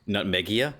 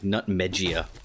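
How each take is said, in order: First: The G is said as a hard sound. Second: The G is said as a soft sound.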